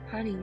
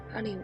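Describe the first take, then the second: No difference in how they are said.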